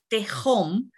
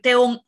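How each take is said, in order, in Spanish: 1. La consonante del medio es un sonido fuerte de garganta. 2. La consonante del medio es muda. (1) "y no Tehom, porque no es una Jaf" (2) "debemos decir Teom"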